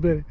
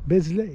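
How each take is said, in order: First: The s in the middle is silent. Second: The s in the middle is sounded. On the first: The speaker calls it right. "ça se prononce Belley" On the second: The speaker calls it wrong. "c'est écrit Besley"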